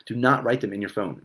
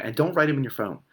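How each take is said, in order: First: Not said apart and hit hard; "Do not" spelled out, with "not" stressed. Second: Said in the usual way. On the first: Shown as a demonstration. Coach insisting viewers use paper, stressing not. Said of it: "repeats with emphasis". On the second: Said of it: "plain warning".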